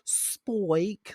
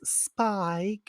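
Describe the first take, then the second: First: The name has the vowel sound 'oy'. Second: The name has the vowel sound 'eye'. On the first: "She goes, Spoik, like S P O I K E" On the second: "she never says Spike"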